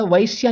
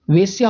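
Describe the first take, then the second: First: वैश्या said with the ai diphthong, the wrong form; teacher stretches वैश्या into an ai sound. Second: वेश्या said with a plain short e, as वेश्या, the correct form; teacher models वेश्या with a clean e sound; correct spelling said. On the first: Teacher warns students against the wrong वैश्या, said with ai. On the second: Teacher shows students the correct form: वेश्या with plain e. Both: Shown as a demonstration. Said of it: "वैश्या नहीं होता है".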